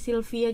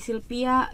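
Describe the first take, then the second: First: The name is said with a v sound. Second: The name is said with a p sound. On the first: "nama saya Sylvia" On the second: "jadi Sylvia"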